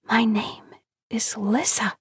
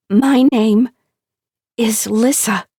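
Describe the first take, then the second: First: Breathy timid whisper into the dark, slow and high. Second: High, loud, triumphant; joyful louder call. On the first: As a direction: barely voice it, afraid to be heard. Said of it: "she risks whispering to the dark". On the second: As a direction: announce the name with delight. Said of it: "She says it louder, again and again". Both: Acted.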